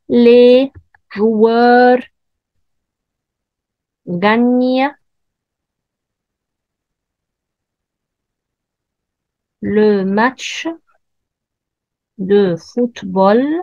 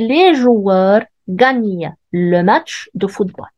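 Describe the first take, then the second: First: The voice rises at the end like a question. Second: The voice falls at the end like a statement. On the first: It asks a yes-or-no question. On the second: It states a fact.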